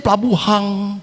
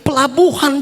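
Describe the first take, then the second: First: The word ends with an added ng sound. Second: The word ends with a plain n sound. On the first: This is how Manado people say it. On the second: This is standard Indonesian.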